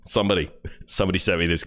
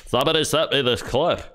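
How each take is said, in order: First: Said in the usual way. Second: Higher, put-on voice aping the host; mocking impression. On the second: Mocking the podcast host's words back at him. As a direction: parrot him back sneeringly.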